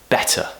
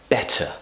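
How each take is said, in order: No difference in how they are said.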